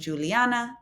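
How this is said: The name is said with English sounds. The speaker calls it wrong. "instead of Juliana"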